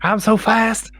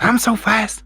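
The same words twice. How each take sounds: First: Higher, put-on southern boxer voice; higher, hammed-up southern brag; mock Ali accent. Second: Higher, breathy, slow southern brag; higher put-on breathless southern voice; breathless Ali impression. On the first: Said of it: "I don't know why you're doing the voice". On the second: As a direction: do Ali breathless, like he's winded. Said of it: "He's kind of breathless when he talks".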